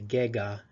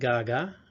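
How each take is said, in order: First: The first vowel is an e sound. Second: The first vowel is an a sound. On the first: "in some communities they'll say gega instead of gaga" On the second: "gaga, soon"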